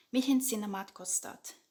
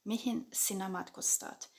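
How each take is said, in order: Both takes have the same delivery.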